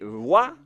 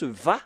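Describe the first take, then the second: First: The syllable begins with a W sound. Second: The syllable begins with a V sound. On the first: The speaker calls it wrong. "comme euh, avec les Anglais" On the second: The speaker calls it right. "la bonne prononciation, c'est Va"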